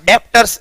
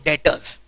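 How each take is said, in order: First: A b sound is heard before the t. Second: No b sound is heard before the t. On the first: The speaker calls it wrong. "ऐसा डेप्टर्स नहीं है वो" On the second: The speaker calls it right. "बी को pronounce नहीं करना है"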